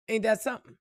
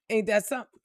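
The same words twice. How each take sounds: The two takes are said the same way.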